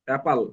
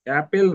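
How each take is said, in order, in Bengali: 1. দ্বিতীয় অংশটি 'pal' এর মতো শোনাচ্ছে। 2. দ্বিতীয় অংশটি 'pel' এর মতো শোনাচ্ছে। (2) "অ্যাপেল নয়"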